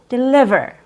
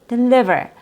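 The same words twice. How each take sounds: No difference in how they are said.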